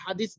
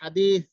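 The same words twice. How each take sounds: First: The middle consonant is a plain s sound. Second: The middle consonant is a soft th sound. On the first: The speaker calls it wrong. "হাদিসের উচ্চারণটা আমরা বাংলা ভাবে করতেছি" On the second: The speaker calls it right. "তা রয়েছে"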